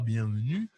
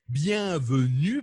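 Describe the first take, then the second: First: The word is mumbled, with sounds run together. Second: The word is articulated clearly, every sound distinct. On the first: The speaker calls it wrong. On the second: The speaker calls it right.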